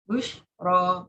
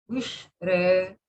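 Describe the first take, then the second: First: The final vowel is a full open vowel. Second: The final vowel is raised toward e. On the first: "yang ujungnya ro" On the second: "Itu taklid"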